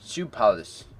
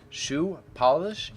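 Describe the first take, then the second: First: The sounds are run together and slurred. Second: Each sound is carefully and clearly enunciated. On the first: "If I'm not trying" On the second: "I say shoe polish"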